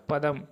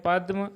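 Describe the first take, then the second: First: पदम as 'pa-dam', vowel after द; पूरा द. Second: पद्म as 'pad-ma', d joined to m; आधा द. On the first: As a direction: give पदम two open syllables, 'pa-dam'. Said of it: "दूसरे का पदम". (पदम में द पूरा बोलें) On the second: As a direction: clip the द of पद्म into the म. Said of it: "यहाँ दे आधा बोलेगा". (पद्म में द आधा बोलें) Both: Shown as a demonstration.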